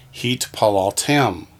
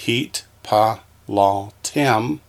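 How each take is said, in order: First: "heat, pa, lal, tem" joined up, accent on "tem"; stress on last syllable. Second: "heat, pa, lal, tem" with a pause after each syllable. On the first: Teacher showing where the accent falls, "heat, pa, lal, tem" stressed on "tem". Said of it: "Accent's gonna be on the last syllable". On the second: Teacher showing students the parts, "heat, pa, lal, tem" one by one. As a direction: sound out "heat, pa, lal, tem" in separate beats. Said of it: "Pronounce each syllable". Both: Shown as a demonstration.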